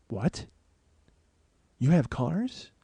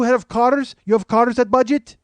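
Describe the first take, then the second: First: Quiet, halting double take; stunned disbelief. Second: High, loud, questioning fake Russian accent; mock Russian accent. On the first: Retold or imitated. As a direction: let it sink in, barely voicing the question. Stunned reaction to the driver's answer. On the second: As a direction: ask like an eager Russian stranger, accent laid on thick. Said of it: "He's a Russian guy".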